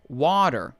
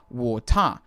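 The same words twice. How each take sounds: First: Said in a broad Californian American accent. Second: Said in a broad Australian accent, no final R. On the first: "an American" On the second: "An Australian"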